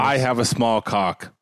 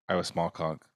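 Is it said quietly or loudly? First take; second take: loudly; quietly. First: It is said loudly, with confidence. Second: It is said quietly, without confidence.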